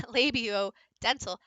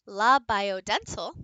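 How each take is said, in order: First: "labiodental" said "LAY-bee-oh-dental"; first part of "labiodental" as "lay-bee-oh"; alternative pronunciation. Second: "labiodental" said "lah-BY-oh-dental"; first part of "labiodental" as "lah-bye-oh"; alternative pronunciation. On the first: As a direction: say "labiodental" slowly, starting like "label". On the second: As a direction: say "labiodental" slowly, with "bio" like "biography". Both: Shown as a demonstration. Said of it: "however you want to pronounce that one".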